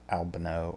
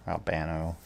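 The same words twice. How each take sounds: First: Albano said "AL-buh-no", stress at the front; first-syllable stress. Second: Albano said "al-BAN-oh", stress in the middle; second-syllable stress. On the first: Tarot reader names the person both ways, first Albano stressed on AL. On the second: Tarot reader gives the alternative name, Albano stressed on BAN. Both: Shown as a demonstration. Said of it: "not sure how he would have pronounced".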